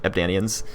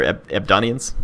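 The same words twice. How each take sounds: First: Ebdanians as eb-DAY-nee-uns; Ebdanians, back to the DAY vowel; settled pronunciation. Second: Ebdonians as eb-DAH-nee-uns; Ebdonians, hesitant restart, stressed on DAH; alternative pronunciation. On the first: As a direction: say Ebdanians with a long AY in the middle. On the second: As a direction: try Ebdonians with an open AH in the middle. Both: Real, not acted. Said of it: "however you pronounced it".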